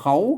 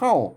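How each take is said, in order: First: The syllable is said with a rising tone. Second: The syllable is said with a falling tone. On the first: "อ่านว่าเขาเสียงจัตวานะครับ" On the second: "ใส่ไม่โทเข้าเข้า"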